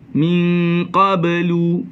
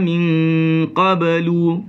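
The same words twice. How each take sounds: No difference in how they are said.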